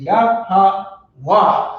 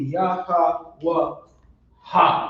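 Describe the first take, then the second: First: It ends on the 'wa' syllable, final 'ha' dropped. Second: It ends on an added final 'ha' syllable. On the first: The speaker calls it right. "So it's just ya, ha, wa" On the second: The speaker calls it wrong. "if we didn't drop the A, ... it would be ya, ha, wa, ha ... that's not Hebrew"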